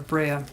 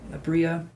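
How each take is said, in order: First: Abrea with an "ay" in the middle; alternative pronunciation. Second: Abria with an "ee" in the middle; first pronunciation. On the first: Reader second-guessing a client's name, Abrea with "ay". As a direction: say Abrea with "bray" in it. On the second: Reader trying a client's name, Abria with "ee". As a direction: say Abria to rhyme with Bria. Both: Shown as a demonstration. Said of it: "can be pronounced two different ways".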